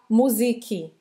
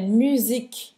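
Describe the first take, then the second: First: An extra vowel sound follows the final k. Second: The word ends cleanly on the k sound. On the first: The speaker calls it wrong. "é não falar musique" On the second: The speaker calls it right. "É musique. Termina no k"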